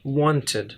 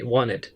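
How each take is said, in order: First: The t sound after the n is pronounced. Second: The t sound after the n is dropped. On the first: This is the standard form of the word. "but it's actually wanted" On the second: This is how it sounds in informal native speech. "as if there were no t"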